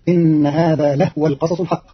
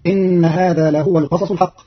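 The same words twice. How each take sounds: First: لهو with silent ha, lahwa; clipped ha in لهو; Qalun reading. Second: لهو with vowelled ha, lahuwa; Hafs reading. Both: Shown as a demonstration. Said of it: "بإسكان الهاء تخفيفا".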